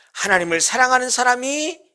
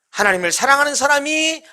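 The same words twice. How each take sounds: The two takes are said the same way.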